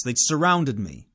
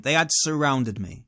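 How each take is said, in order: First: Said in the usual way. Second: "had" spoken in full and emphasized; firm emphasis on "had", falling after; stress on HAD. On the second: Retold or imitated. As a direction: insist on "had", pressing the word. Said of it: "I'm not exaggerating that point".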